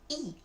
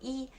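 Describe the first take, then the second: First: The syllable has a falling tone. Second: The syllable has a high level tone. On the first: This is the form used before a third-tone syllable. "we will pronounce E as the fourth tone" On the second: This is the form used when counting. "it's the first tone, you say E"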